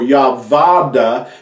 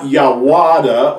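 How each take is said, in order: First: The middle syllable starts with a v sound. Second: The middle syllable starts with a w sound. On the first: "or Yavada" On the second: "It's not Yawada"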